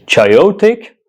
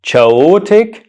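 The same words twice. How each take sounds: First: "Chaotic" misread as chai-OH-tick, rising high; questioning, higher "Chaotic", wrongly said chai-OH-tick; mispronunciation demo. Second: "Chaotic" misread as cha-OH-tick, pitched high; questioning, higher "Chaotic", wrongly said cha-OH-tick; mispronunciation demo. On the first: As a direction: try "Chaotic" with a ch as in chair and a "chai" start, as a question. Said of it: "How do you pronounce this word?". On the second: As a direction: try "Chaotic" with a ch as in chair and no y glide, as a question. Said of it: "How do you pronounce it?". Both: Shown as a demonstration.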